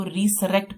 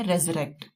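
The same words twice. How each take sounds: First: रिसरेक्ट read "ri-sa-rect", following the spelling; letter-by-letter reading रिसरेक्ट; trick spelling pronunciation. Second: रेजरेक्ट said "rez-rect", with a z sound; the true reading रेजरेक्ट; teacher giving the real sound of रेजरेक्ट; correct pronunciation. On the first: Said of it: "trick के लिए हम इसको रिसरेक्ट पढ़ेंगे". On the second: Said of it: "लेकिन इसकी pronunciation है रेजरेक्ट". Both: Shown as a demonstration.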